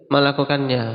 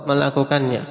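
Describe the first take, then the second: Both takes have the same delivery.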